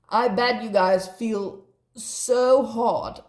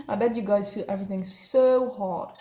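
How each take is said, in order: First: Slow emphatic. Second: Said in the usual way. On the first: Shown as a demonstration.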